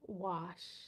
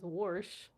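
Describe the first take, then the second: First: It is said the city way, without an r. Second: It is said with a country r, like warsh.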